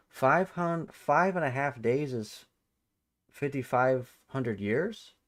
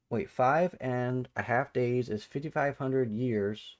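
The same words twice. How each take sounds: First: Incredulous repeat. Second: Said in the usual way. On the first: Real, not acted. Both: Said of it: "That's news to me".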